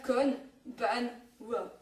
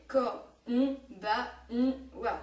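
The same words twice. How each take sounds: First: Kon ban wa chopped into three syllables, louder; clumsy kon ban wa. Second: Ko on ba on wa with n as its own beat, louder; mora by mora konbanwa. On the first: Teacher shows students the clumsy three-syllable split. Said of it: "la manière boulet". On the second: Teacher to students, konbanwa counted mora by mora. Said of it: "On est d'accord que c'est différent". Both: Shown as a demonstration.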